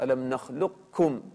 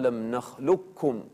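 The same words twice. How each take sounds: First: A trace of the qaf is heard before kaf. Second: The qaf merges fully into the kaf, unheard. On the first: "يكون هناك أثر للقاف" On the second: "إما أن يكون الإدغام كاملا"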